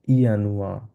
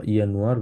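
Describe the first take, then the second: First: ইয়ানুয়া ending in an open "a"; no final R. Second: ইয়ানুয়ার ending in a sounded R; with final R. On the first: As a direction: say ইয়ানুয়া as "ya-nu-a", R dropped. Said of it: "আপনারা আরটা বলার প্রয়োজন নেই". (ইয়ানুয়া, শেষে র ছাড়া) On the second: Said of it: "আমি আরটা দিয়েছি". (ইয়ানুয়ার, শেষে র উচ্চারিত) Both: Shown as a demonstration.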